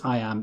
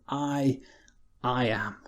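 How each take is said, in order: First: Said in the usual way. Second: "I, I am" with the I said twice and held; doubly emphasized I, I am, hushed and deliberate; doubled I. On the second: Shown as a demonstration. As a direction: weigh down "I" by repeating it, then land on "am". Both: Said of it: "almost doubly emphasized".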